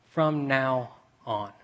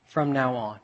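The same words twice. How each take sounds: First: "From now on" drawn out slowly, every word weighted; slow emphasis. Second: Said in the usual way. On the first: Shown as a demonstration. Preacher dwelling on the three words, slowly. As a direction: let "From now on" sink in slowly. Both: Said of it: "three little words".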